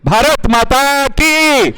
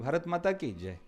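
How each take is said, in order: First: It is said loudly, with full force. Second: It is said weakly, without energy.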